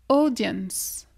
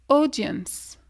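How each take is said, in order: The two takes are said the same way.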